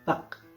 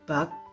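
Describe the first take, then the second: First: The final k is clearly released. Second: The final k is soft and unreleased. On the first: "K-nya keluar" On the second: "itu pelafalannya biasa"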